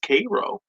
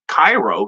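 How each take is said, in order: First: The first syllable rhymes with say. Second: The first syllable rhymes with eye. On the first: The speaker calls it right. "It's pronounced Cairo, like syrup" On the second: The speaker calls it wrong. "It's not Cairo, C A I R O, like Egypt"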